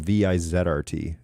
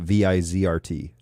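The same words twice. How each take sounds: First: The letter Z is named the European/Canadian way. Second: The letter Z is named the American way.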